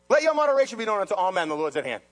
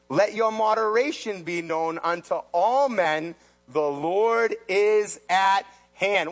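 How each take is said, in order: First: Fast, plain recap of the verse; quick restatement. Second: Slow, solemn scripture read. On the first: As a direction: run through it fast. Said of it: "What's that mean?". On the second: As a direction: read it like holy writ. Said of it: "And then he says". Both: Acted.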